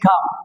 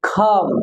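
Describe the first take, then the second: First: The first k sound is unaspirated. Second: The first k sound is aspirated. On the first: The speaker calls it wrong. "সাধারণত বলে থাকে কাম" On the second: The speaker calls it right. "Right pronounce word খাম"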